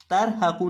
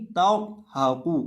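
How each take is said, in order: First: तर हा कू with a thin, light ra in तर; wrong thin ra. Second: तर हा कू slowly, with a thick, rounded ra; full heavy ra. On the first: Teacher showing pupils the mistake, thin ra in तर हा कू. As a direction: flatten तर to a thin "tair" in तर हा कू. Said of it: "तर हा कू नहीं". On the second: Teacher correcting the mistake, heavy ra in तर हा कू. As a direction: fill out the ra of तर in तर हा कू. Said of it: "रॉ को पुर करेंगे". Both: Shown as a demonstration.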